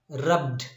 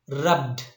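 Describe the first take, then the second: The two takes are said the same way.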